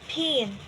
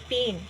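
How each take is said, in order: First: The p is said with a puff of air. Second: The p is said without a puff of air. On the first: "So P H shows that the P sound is as" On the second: "in broad transcription, it pronounced pin"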